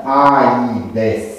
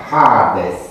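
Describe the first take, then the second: First: Aides very slowly as a-i-des; vowels in hiatus. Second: Hades with a long a and no i; long alpha. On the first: Teacher shows the form not written, slow aides in hiatus. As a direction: stretch aides out, a and i in separate syllables. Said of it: "cu vocalele pronunțate în hiat". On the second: Teacher gives the Attic form, Hades with long alpha. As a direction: say Hades as haa-des, first vowel held. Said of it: "Acolo alfa este lung". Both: Shown as a demonstration.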